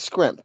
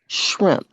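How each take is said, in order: First: The word begins with an s-k-r sound. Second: The word begins with an s-h-r sound. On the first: The speaker calls it wrong. "if somebody says scrimp and that's just how they pronounce it" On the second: The speaker calls it right. "It's actually enunciated shrimp"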